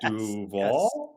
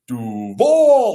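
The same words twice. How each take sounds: First: It is said questioningly with a rise. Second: It is said confidently with a fall.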